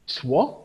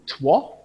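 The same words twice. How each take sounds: First: The word is sounded out from its letters. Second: The word is sounded out from its letters.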